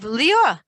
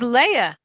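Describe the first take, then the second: First: The name is said with an old Sephardic pronunciation. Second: The name is said with a plain English pronunciation. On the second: "which is Leah"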